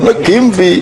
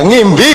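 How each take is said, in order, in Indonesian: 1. Nama itu diawali dengan suku kata ekstra ne. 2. Nama itu langsung diawali dengan bunyi ng. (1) "Itu penyiar mesti Negimbi ngono kae" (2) "Negimbi ora iso deh"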